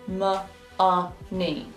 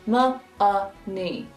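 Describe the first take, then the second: Both takes have the same delivery.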